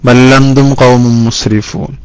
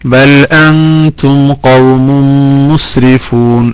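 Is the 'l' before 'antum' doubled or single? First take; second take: doubled; single. First: The l is doubled and the glottal stop dropped. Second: The l is single and the glottal stop kept. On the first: The speaker calls it wrong. "ഹംസ കളയും ചെയ്തു" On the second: The speaker calls it right. "മാഷാ അല്ലാഹ് കറക്റ്റായി"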